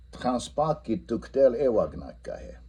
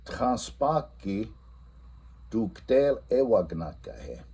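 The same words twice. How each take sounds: First: Said in the usual way. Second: "Transpaki" drawn out very slowly; teacher quizzing the class in Lakota; slow quiz question. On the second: Shown as a demonstration. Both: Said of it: "and then I ask".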